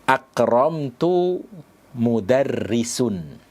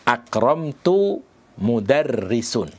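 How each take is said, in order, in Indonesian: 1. Kata terakhir diakhiri bunyi u. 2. Kata terakhir diakhiri bunyi u.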